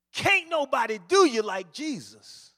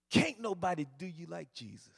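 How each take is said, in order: First: Can't nobody do you like Jesus called out louder; a little bit louder. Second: Said in the usual way. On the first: Retold or imitated. Street preacher gets louder at the staring crowd, louder call. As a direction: lift the volume on Jesus. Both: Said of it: "he got a little bit louder".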